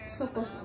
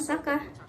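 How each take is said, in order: First: Both vowels are pronounced as a rounded o. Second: Both vowels are pronounced as an open a. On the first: This is the eastern Javanese form. "bahasa Jawa Wetanan yang mengucapkannya dengan kata soko" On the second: This is the Tegal dialect form. "Dalam dialek Tegal diucapkan saka"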